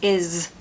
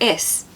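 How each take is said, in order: First: The word ends with a buzzing Z sound. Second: The word ends with a hissing S sound. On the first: The speaker calls it right. "it's is. ... the S sometimes being a Z sound" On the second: The speaker calls it wrong. "instead of is"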